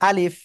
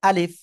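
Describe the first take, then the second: Both takes have the same delivery.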